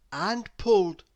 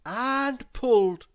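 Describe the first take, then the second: No difference in how they are said.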